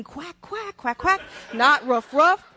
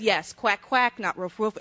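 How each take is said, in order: First: High mock Italian accent on Quack and roof; imitating the Italians. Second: Said in the usual way. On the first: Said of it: "They're going". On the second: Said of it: "I said".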